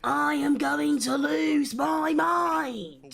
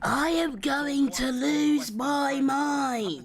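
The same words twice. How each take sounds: First: Same words, slow and yelled; a slow, exasperated shout; mock frustrated yell. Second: Mock-despairing, dragged out slowly; a slow, exasperated drone; slow drawn-out despair. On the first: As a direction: drag it out and shout it. Repeats line, now yelled. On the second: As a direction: stretch every word out very slowly. Repeats line in mounting frustration.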